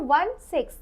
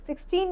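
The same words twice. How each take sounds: First: वन सिक्स as two separate digits, one then six; वन सिक्स, each digit spoken on its own; digits said separately. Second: सिक्सटीन said as one whole number; सिक्सटीन as a single two-digit number; wrong reading. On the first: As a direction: read वन सिक्स digit by digit, not as a number. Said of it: "हम इसको पढ़ेंगे वन सिक्स". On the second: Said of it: "सिक्सटीन नहीं". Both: Shown as a demonstration.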